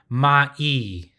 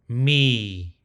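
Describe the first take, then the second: First: The consonant and vowel are said as two syllables. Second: The consonant and vowel blend into one syllable. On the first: The speaker calls it wrong. "that's not correct" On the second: The speaker calls it right. "it'll be pronounced me"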